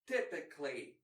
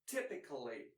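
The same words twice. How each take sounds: First: The unstressed vowel before the ending is dropped. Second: The unstressed vowel before the ending is pronounced. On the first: This is the more common form. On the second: This is the less common, careful form.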